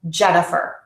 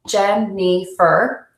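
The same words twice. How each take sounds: First: Long first syllable, very short middle, medium last. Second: All three syllables have the same length. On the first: "as opposed to a stress timed" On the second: "Let me use a syllable timed to say my name"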